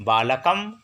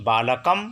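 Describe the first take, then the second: No difference in how they are said.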